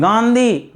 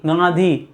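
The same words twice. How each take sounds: First: गांधी with a clear n, "gaan-dhee"; contrasted pronunciation. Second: गांधी lower, with hardly any n; low गांधी, the n melting into the vowel; contrasted pronunciation. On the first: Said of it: "गांधी नहीं पढ़ते हैं". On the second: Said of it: "गांधी पढ़ते हैं". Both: Shown as a demonstration.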